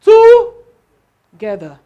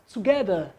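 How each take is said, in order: First: Together shouted, stress wrongly on TO, slow and very loud. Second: Together, GE stressed, said gently; correct stress. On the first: Teacher demos the wrong stress to the class, shouting TO. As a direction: yell Together, hammering TO. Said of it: "I'll shout, "Together". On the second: Teacher shows the right stress on Together, GE stressed. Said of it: "the stress is on what? G E". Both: Shown as a demonstration.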